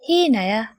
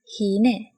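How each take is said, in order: First: The word ends with a full 'aya' syllable. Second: The word ends with a short 'e' sound. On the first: This is the full dictionary form. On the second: This is the everyday spoken form.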